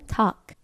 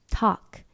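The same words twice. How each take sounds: The two takes are said the same way.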